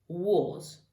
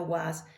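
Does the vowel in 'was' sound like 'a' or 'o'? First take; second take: o; a. First: The vowel sounds like a rounded 'o'. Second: The vowel sounds like an open 'a'. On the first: The speaker calls it right. "c'est comme si c'était un O ici" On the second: The speaker calls it wrong. "c'est pas was"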